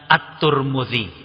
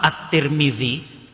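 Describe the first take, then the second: First: The name's first two vowels sound like u. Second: The name's first two vowels sound like i. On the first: "kadang dibaca juga dengan" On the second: "Imam At-Tirmidzi"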